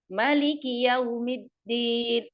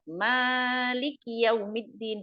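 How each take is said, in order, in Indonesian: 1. Vokal pertama 'ma' dibaca pendek. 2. Vokal pertama 'ma' dibaca panjang. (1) "Makanya dibaca pendek" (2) "riwayat Hafiz itu ma-nya panjang"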